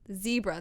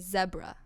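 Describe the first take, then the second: First: The word is said with an American pronunciation. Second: The word is said with a British pronunciation. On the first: This is how the speaker normally says it. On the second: This is how the local kids say it.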